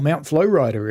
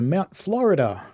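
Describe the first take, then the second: First: It is said with an American-style pronunciation. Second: It is said with a local, non-American pronunciation.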